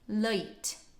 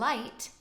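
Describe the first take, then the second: First: The vowel begins with a neutral 'uh' sound. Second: The vowel begins with an open 'ah' sound.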